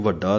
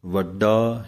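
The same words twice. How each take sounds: First: ਵੱਡਾ with an aspirated dh like ਢੱਡਾ; the mistaken ਵੱਡਾ with a breathy d; ਵੱਡਾ with a heavy, breathy d; wrong way. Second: ਵੱਡਾ slow with a clean unaspirated d; ਵੱਡਾ held and clear, no breath on the d; ਵੱਡਾ with a crisp d; plain dadda. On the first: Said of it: "ਇਹਨੂੰ ਵੱਡਾ ਨਹੀਂ ਕਹਿ ਦੇਣਾ". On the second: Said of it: "ਡੱਡੇ ਦੀ ਆਵਾਜ਼ ਹੀ ਦੇਣੀ ਹੈ". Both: Shown as a demonstration.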